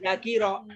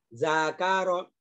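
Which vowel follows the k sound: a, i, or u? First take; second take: i; a. First: The vowel after the k is i. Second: The vowel after the k is a. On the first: The speaker calls it wrong. "nggak boleh" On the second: The speaker calls it right. "Semuanya dibaca fathah"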